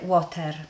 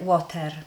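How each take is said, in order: First: The word is said with a Polish accent. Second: The same.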